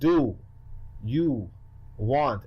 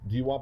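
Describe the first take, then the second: First: The words are separated, drawn out and enunciated. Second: The words run together in one quick blend. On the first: "You gotta space it out" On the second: "it's just a blend"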